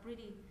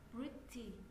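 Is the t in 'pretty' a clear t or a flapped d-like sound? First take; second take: flapped; clear t. First: The t is flapped like a quick d. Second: The t is pronounced as a clear t.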